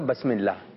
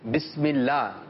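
First: The first vowel is an 'a' sound. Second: The first vowel is an 'i' sound. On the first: The speaker calls it wrong. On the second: The speaker calls it right.

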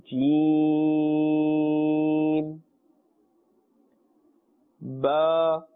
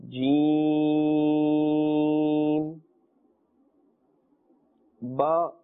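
Both takes have the same delivery.

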